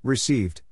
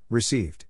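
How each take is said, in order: Both takes have the same delivery.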